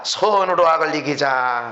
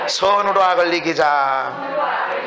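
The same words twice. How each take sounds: First: Slow, lower 선으로 악을 이기자 with weight on 선으로; call to repeat. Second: Slow, shouted 선으로 악을 이기자, stress on 선으로; congregation shout. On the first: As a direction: lead the line for the congregation to repeat, 선으로 first. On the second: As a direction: proclaim 선으로 악을 이기자 back as a crowd. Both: Shown as a demonstration. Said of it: "따라합시다".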